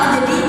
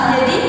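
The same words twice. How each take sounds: Both takes have the same delivery.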